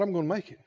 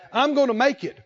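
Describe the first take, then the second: First: Quiet. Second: Said in the usual way. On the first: Shown as a demonstration. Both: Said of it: "Somebody said out loud".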